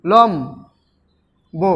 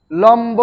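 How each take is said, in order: First: লম্ব as লম, long pause, ব; syllable split. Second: Said in the usual way. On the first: Shown as a demonstration. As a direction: break লম্ব slowly into লম and ব. Teacher splits word into syllables. (লম্ব ভেঙে লম, ব)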